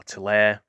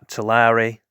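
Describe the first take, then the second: First: Tulare in two syllables, too-LAIR; Tulare with silent ending. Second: Tulare in three syllables, too-LAR-ee; Tulare with sounded ending. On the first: Host offering another guess at the town, Tulare as too-LAIR. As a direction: say Tulare to rhyme with "air". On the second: Unsure host trying out a California town's name, Tulare as too-LAR-ee. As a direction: say Tulare to rhyme with "starry". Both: Shown as a demonstration. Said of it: "how you pronounce this".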